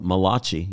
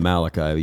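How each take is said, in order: First: The name is said with an Italian-sounding pronunciation. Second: The name is said with a usual English pronunciation. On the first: The speaker calls it right. "the Italian prophet" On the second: The speaker calls it wrong. "You're just pronouncing it wrong"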